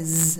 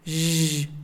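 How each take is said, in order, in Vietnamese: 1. Âm z rung đơn thuần được phát ra. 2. Âm zh được phát ra với môi tròn. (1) "âm z là không đúng đâu" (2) "không phải là z mà là zzz"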